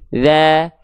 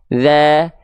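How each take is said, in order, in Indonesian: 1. Vokal diucapkan dengan bibir sedikit tersenyum. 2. Vokal diucapkan dengan bibir sedikit tersenyum.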